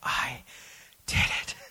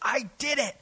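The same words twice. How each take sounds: First: It is said in a weak, exhausted tone. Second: It is said in a triumphant, victorious tone.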